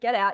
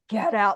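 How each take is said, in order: First: It is said in a brisk, impatient way. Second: It is said in a menacing, horrible way.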